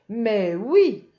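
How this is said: It is said as a lively exclamation.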